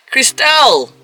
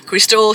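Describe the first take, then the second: First: High, called-out name reveal; announced with flourish. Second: Said in the usual way. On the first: Acted. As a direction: sing out the name like an introduction. Announcing next woman with a flourish.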